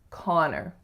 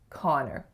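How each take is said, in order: First: The second syllable has a reduced 'er' vowel. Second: The second syllable has a reduced 'er' vowel.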